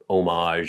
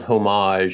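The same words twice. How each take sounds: First: It is said with a French pronunciation. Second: It is said with an American pronunciation. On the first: "the French way" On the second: "the American way"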